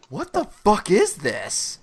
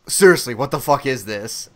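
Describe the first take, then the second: First: Drawn-out, slow disbelief; slow-motion bafflement; bewildered reaction. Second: Low, firm exasperation; lower, louder, exasperated retelling; fed-up disbelief. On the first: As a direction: stretch it out, slowly taking in something baffling. First reaction to the film. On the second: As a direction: drop the pitch and demand an explanation. Later reaction as film goes on. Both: Retold or imitated.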